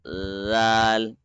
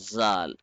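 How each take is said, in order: First: The first consonant sounds like an L. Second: The first consonant sounds like a Z. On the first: The speaker calls it right. "touch the tongue here at this place at the edge" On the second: The speaker calls it wrong. "not zal"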